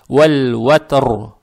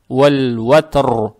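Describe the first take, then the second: The two takes are said the same way.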